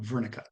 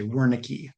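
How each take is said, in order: First: The name has a non-American, original-style pronunciation. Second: The name has the common American pronunciation. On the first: This is how the man himself said it. "the way he pronounced it, it's more like Wernicke" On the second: This is how many Americans say it. "a lot of Americans say Wernicke"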